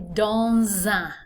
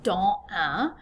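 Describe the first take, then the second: First: The s of dans links as a z sound. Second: The s of dans is silent, not linked. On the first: The speaker calls it right. "I'm going to say dans un. So that S becomes like a Z sound" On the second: The speaker calls it wrong. "instead of saying"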